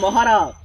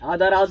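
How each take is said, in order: First: The word begins with the sounds 'maha'. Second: The word begins with the sounds 'ada'. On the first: The speaker calls it right. "বলো মহারাজ" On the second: The speaker calls it wrong. "আদারাজ না"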